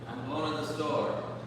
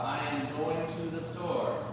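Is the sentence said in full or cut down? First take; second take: cut down; full. First: The words are shortened and run together. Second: Every word is said fully and separately. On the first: "But how do we really say it?" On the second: "we learn how to say"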